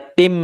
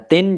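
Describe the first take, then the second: First: The syllable ends merged into a nasal m. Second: The syllable ends with a clear n sound. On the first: This is the form when joined to the next word. "jadinya tim, ya, masuk kepada huruf mim" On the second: This is the form before joining the next word. "tadinya tin"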